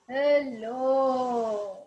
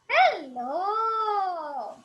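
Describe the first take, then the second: First: It is said in a heavy, big voice. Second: It is said in a light puppet voice.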